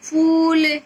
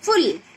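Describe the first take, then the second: First: The vowel is drawn out and long. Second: The vowel is said short and quick. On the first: The speaker calls it right. "बड़े ऊ की मात्रा में थोड़ा बोलने में क्या लगेगा? समय लगेगा।" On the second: The speaker calls it wrong. "अगर हम इसको छोटे ऊ में बोलते तो क्या बोलते?"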